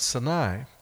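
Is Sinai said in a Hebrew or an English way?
Hebrew. Sinai is said the way Hebrew speakers say it. This is the proper native pronunciation. The speaker calls it right. "who says it right"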